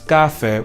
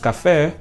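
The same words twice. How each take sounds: First: The stress is on the first syllable. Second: The stress is on the last syllable. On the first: The speaker calls it wrong. "we do not pronounce café" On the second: The speaker calls it right. "it doesn't follow the standard, second to last syllable"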